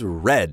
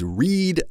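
First: The vowel is short, sounding like red. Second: The vowel is long, rhyming with reed. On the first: The action happened in the past. "the past tense and the past participle is read, same as the color red" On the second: The action happens now. "the present tense is read"

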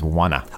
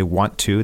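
First: The words merge into one reduced form, wanna. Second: Both words are said fully and separately. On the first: "that becomes wanna" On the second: "We say want to"

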